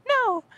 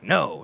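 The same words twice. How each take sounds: First: Very high, bright little no; mock high sweet no. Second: Said in the usual way. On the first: Shown as a demonstration. Showing how the boss says no, squeaky high. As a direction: float the no way up high and light. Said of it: "He's saying". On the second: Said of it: "It's not even like I'm saying it like".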